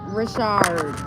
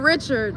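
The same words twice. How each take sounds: First: The name is said with a fancy French-style sound. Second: The name is said in the plain English way. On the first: "I guess they make it sound more fancy" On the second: "Instead of"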